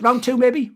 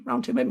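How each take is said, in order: First: Said in the usual way. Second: Same words again, dropped much softer; softer repeat. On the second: Shown as a demonstration. Podcast host repeating his offer to Jacob, softer. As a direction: echo the offer under your breath, softer.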